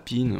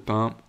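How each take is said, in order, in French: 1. On le prononce à l'anglaise, comme pin. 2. On le prononce à la française, avec une voyelle nasale. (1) "je pense au code PIN" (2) "au lieu de pain"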